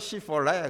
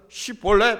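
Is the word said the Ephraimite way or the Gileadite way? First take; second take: Ephraimite; Gileadite. First: It is said the way Ephraimites say it. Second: It is said the way Gileadites say it. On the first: This reveals the speaker as an Ephraimite. The speaker calls it wrong. "시폴레 그러는 거예요" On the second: This is the password pronunciation. The speaker calls it right. "시볼레 발음 못하고"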